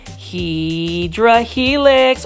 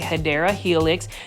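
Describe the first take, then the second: First: The first word is said like 'hydra'. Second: The first word is said like 'hedera'. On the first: The speaker calls it wrong. "Say it with me, plant foldies" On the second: The speaker calls it right. "or the correct way to say it"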